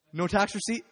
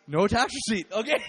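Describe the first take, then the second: First: Loud question rising on "receipt"; incredulous question. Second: Very loud "No tax receipt", falling at the end; emphatic answer. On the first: Giver questioning Jesus about the cash, loud rising question. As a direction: ask "No tax receipt" loudly, lifting the end. Acts out haggling over giving cash. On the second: Told to give without a receipt, very loud falling answer. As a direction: repeat "No tax receipt" forcefully as a statement. Answer in acted exchange over cash. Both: Retold or imitated.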